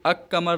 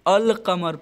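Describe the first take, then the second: First: The l merges into a doubled k sound. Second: The l is clearly heard before the k. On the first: The speaker calls it wrong. "अक कमर नहीं" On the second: The speaker calls it right. "बल्कि अल कमर पढ़ता हूँ"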